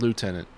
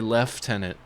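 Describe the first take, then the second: First: It is said with an American pronunciation. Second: It is said with a British pronunciation. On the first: The speaker calls it right. "The word's lieutenant" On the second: The speaker calls it wrong. "It's like an English thing, British thing"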